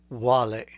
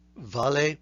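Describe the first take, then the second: First: The word begins with a w sound. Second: The word begins with a v sound. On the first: "is supposed to be pronounced as wale" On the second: "the V as in vale"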